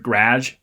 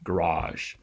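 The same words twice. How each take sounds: First: The stressed vowel sounds like the 'a' in 'typewriter'. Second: The stressed vowel is an open 'ah' sound. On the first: "where this becomes more like that typewriter A vowel" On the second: "as opposed to the ah garage"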